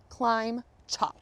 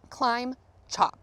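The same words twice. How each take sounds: The two takes are said the same way.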